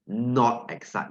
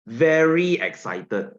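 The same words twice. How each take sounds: First: Said in the usual way. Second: Louder, stretched and slower; excited. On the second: Shown as a demonstration. Teacher contrasting excitement for the class, slow and excited. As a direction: sell it with real excitement. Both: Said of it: "See the difference?".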